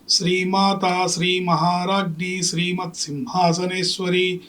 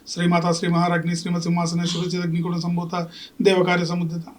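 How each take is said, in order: First: It is recited calmly, without hurry. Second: It is rattled off in a hurry.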